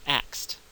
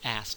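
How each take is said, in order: First: It is said with a K before the S. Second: It is said with no K sound at all. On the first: "Put the K out in front of the S" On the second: "there's no K there at all"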